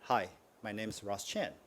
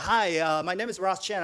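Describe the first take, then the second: First: It sounds calm and composed. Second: It sounds excited, like an eager salesperson. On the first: The speaker comes across as a professional. The speaker calls it right. "That's professional, very calm" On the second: The speaker comes across as a salesperson. The speaker calls it wrong. "You sound like a salesperson"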